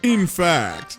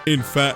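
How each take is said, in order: First: It is said in a put-on genius voice. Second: It is said in his normal voice.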